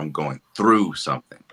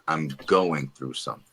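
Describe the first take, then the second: First: The word through carries the main stress. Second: The word going carries the main stress. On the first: "or is it the through?" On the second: "is the emphasis on the going"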